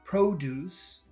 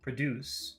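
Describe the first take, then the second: First: Both the first and second syllables are long. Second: The first syllable is short, the second long. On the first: It means fruits and vegetables sold in a store. "if you pronounce it long long" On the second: It means to make something. "if you pronounce it short long"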